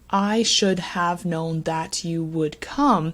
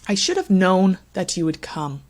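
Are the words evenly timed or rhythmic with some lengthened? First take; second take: evenly timed; rhythmic. First: Every word gets the same length and weight. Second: Unstressed words are quick; stressed words are lengthened. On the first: The speaker calls it wrong. "reading the sentence giving each word equal time" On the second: The speaker calls it right. "Everything not stressed moves quite quickly, then the stressed word is given more time"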